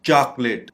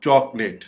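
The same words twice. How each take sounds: First: "चॉकलेट" said CHAAK-let; open vowel variant. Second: "चॉकलेट" said CHAWK-let; rounded vowel variant. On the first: Teacher showing one way, "चॉकलेट" as CHAAK-let. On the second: Teacher showing the other way, "चॉकलेट" as CHAWK-let. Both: Shown as a demonstration. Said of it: "दो तरीकों से pronounce".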